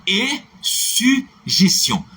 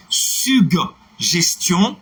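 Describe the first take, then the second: First: Drawn-out contrast form; slow demo word. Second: "suggestion" slowly, hard g then j, rising; drawn-out correct form; slow demo word. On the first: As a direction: model "suggestion" as sy-jes-tion. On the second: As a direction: model "suggestion" with g-j sound. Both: Shown as a demonstration. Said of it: "ce n'est pas la bonne prononciation".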